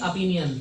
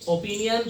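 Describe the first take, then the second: First: The first vowel is a short 'uh' sound. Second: The first vowel is a full 'o' sound. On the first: The speaker calls it right. "ओ को अ पढ़ा जाता है" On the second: The speaker calls it wrong. "ओ की जगह ओ नहीं बोला जाता"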